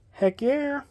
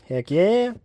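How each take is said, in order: First: Much higher, softer "Heck yeah"; squeaky high heck yeah. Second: Said in the usual way. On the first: Shown as a demonstration. Vlogger cheering about a Steve Martin book, high squeak. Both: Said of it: "same words said twice".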